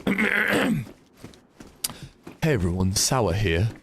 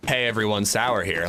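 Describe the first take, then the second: First: Gruff attempt at another streamer's intro; Sour. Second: Said in the usual way. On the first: Shown as a demonstration. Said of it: "trying to do sour". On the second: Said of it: "I actually can do an okay".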